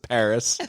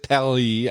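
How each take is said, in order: First: The word is said with an American accent. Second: The word is said with a French accent. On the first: "I pronounce it Paris, because I'm a goddamn American" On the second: "I don't pronounce it Paris"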